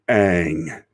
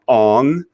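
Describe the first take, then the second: First: The name is said with an 'aang' vowel. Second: The name is said with an 'ong' vowel. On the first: The speaker calls it right. "it's pronounced Aang" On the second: The speaker calls it wrong. "his name was not Ong"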